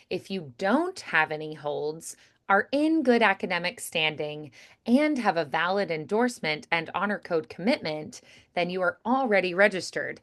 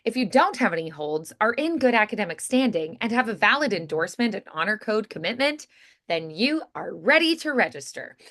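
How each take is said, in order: First: It is read slowly throughout. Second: It is read quickly throughout.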